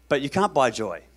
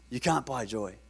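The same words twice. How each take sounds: First: Said in the usual way. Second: Softer repeat. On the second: Real, not acted. Preacher repeating the key point to the congregation, softly. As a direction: let the point land softly.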